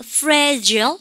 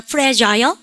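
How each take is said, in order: First: "fragile" as fra-jul, short last vowel; American ending. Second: "fragile" slowly with a full jai-ul; British ending. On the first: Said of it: "근데 영국 애들은". ("fragile"을 프래절로) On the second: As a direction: sound the long I in "fragile". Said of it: "아이 발음하는 거 좋아합니다". ("fragile"을 프래자일로) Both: Shown as a demonstration.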